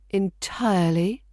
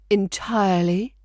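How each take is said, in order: Both takes have the same delivery.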